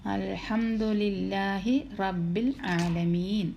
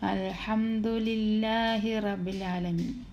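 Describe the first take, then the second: First: The b sound is doubled and held firmly. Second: The b sound is single and short. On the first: The speaker calls it right. "ബാന് ശബ്ദമുള്ളതുകൊണ്ട് നമ്മൾ ഇത്തിരി കട്ടിക്ക് പറയണം" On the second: The speaker calls it wrong. "ബായുടെ ഷെദ്ദില്ലാന്ന് പറഞ്ഞു നോക്കിയേ"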